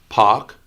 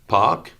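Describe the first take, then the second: No difference in how they are said.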